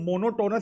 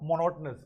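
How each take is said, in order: First: The third syllable has a full 'o' vowel. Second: The third syllable has a reduced, weak vowel. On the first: The speaker calls it wrong. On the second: The speaker calls it right.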